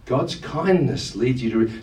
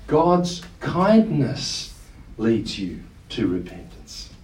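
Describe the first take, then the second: First: Said in the usual way. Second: Slow it right down and lean on "God's kindness"; preacher lingering on "God's kindness" in a slow emphatic phrase; stress on kindness. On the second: Shown as a demonstration.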